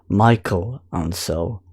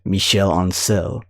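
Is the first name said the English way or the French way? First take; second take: English; French. First: The first name is said the English way. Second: The first name is said the French way. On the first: The speaker calls it wrong. "some people have been pronouncing him as" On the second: The speaker calls it right. "the true French pronunciation is"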